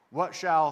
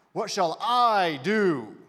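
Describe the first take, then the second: First: Said in the usual way. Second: "I" drawn out long and loud; stress on I. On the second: Shown as a demonstration. Preacher exposing the heart behind the question, heavy loud stress on "I". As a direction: lean hard and slowly on the word "I". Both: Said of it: "can I emphasize a word for you?".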